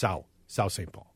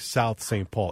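First: 'South' is shortened and run together. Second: 'South' is pronounced fully and carefully. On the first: This is how locals say it. "it's just South St. Paul" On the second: This is how it is said on the radio. "I've been forced by this job to say South St. Paul"

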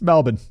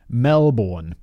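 First: The name is said the local, reduced way. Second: Every letter of the name is sounded out fully. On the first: The speaker calls it right. "yo, fact boy, it's Melbourne" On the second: The speaker calls it wrong. "I pronounced Melbourne, Melbourne, how it's spelled"

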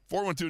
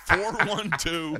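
First: It is said quickly. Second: It is said slowly and sensually.

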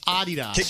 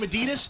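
First: The brand name is said the international way. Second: The brand name is said the American way. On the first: This is how the rest of the world says it. The speaker calls it right. "the correct pronunciation is Adidas" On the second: This is how people in one country say it. The speaker calls it wrong. "in America, we somehow adopted the word Adidas. So we call them Adidas"

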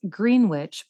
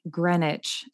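First: The name is said the way it is spelled. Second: The name is said unlike its spelling. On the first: This is how an outsider would say it. The speaker calls it wrong. "which I originally thought it was pronounced Greenwich" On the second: This is how locals say it. The speaker calls it right. "but it's actually Greenwich"

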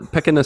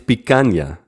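First: The middle consonant is a plain n sound. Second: The middle consonant is a palatal ny sound. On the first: The speaker calls it wrong. "This terrible pronunciation" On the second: The speaker calls it right. "It's picanha"

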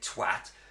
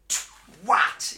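First: The word is said plainly, without extra force. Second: The W is said with strong emphasis. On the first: The speaker calls it wrong. "it's not enough to say twat" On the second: The speaker calls it right. "You've got to twat. / Emphasise the W"

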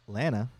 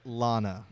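First: The first vowel sounds like the one in banana. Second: The first vowel differs from the one in banana. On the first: The speaker calls it right. "As in banana" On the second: The speaker calls it wrong. "Not Lana"

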